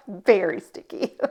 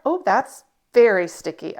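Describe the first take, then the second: First: Said in the usual way. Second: Elf voice. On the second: Real, not acted. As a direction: squeal it like Buddy the Elf. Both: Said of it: "I sound like Elf".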